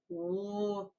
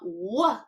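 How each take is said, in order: First: The sound is cut off with no added vowel. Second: The sound ends with an added uh vowel. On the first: The speaker calls it right. "it's woo" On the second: The speaker calls it wrong. "you cut off that uh. It's not wh"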